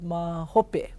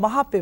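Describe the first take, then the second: First: The middle syllable is said as 'ho'. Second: The middle syllable is said as 'ha'. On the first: The standard written form. "instead of mahope" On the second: A casual spoken form meaning later. "it's just another pronunciation of mahope"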